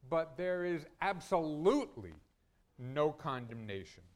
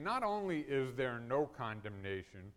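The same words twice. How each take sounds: First: "absolutely" punched louder, then "no condemnation" set apart after a pause; preacher hits "absolutely" hard to drive home "no"; stress on absolutely. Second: Said in the usual way. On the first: Shown as a demonstration. Preacher stressing "absolutely" to his congregation, emphatic. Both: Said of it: "arranged that way to emphasize that word".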